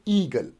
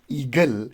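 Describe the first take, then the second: First: The stress is on the first syllable. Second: The stress is on the second syllable. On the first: The speaker calls it right. "the stress goes on first syllable, so we say eagle" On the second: The speaker calls it wrong. "If the stress would have gone on the second syllable, then we would pronounce it as eagle"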